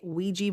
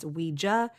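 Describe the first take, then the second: First: It is said with the American pronunciation. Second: It is said with the non-American pronunciation. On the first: "here in America, we tend to say Ouija board" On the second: "in other parts of the world it's Ouija. I think that's the actual correct pronunciation"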